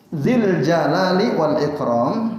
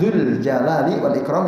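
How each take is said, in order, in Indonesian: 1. Kata pertama berakhir dengan vokal i. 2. Kata pertama berakhir dengan vokal u. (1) "kata zu jadi zi ini namanya majrur" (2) "kalau dibacanya zu"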